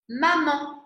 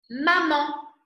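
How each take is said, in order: The two takes are said the same way.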